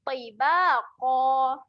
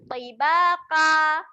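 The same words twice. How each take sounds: First: The last consonant is a deep throaty q. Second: The last consonant sounds like a plain k. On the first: The speaker calls it right. "baru betul" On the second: The speaker calls it wrong. "bunyi macam tu salah eh"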